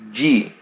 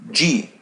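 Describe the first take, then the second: First: It sounds like the letter name 'gee'. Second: It sounds like the letter name 'gee'.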